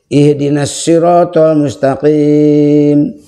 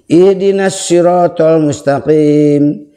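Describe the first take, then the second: First: The final long vowel is held moderately long. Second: The final long vowel is held briefly. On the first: "bisa empat" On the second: "Itu bisa dua"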